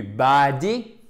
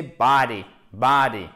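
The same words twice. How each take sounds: First: Body said as ba-di with an open A; wrong French A. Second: Body with a long vowel near A, falling; vowel between A and O. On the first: Teacher warning against the other extreme, body as flat French ba-di. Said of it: "ce n'est pas non plus body". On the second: Teacher giving the correct model, body with long open first vowel. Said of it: "Entre le A et le O". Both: Shown as a demonstration.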